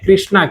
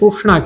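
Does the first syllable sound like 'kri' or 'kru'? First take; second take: kri; kru. First: The first syllable is pronounced like 'kri'. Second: The first syllable is pronounced like 'kru'. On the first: This is how people in some other regions say it. "એ અમુક જગ્યાએ એને કૃષ્ણા કહે... એક જાતની ક્રી એ ટાઈપનું નીકળે" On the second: This is how people in this region say it. "આપણે એને કૃષ્ણા કહીએ છીએ... આપણે રૂ બોલીએ છીએ"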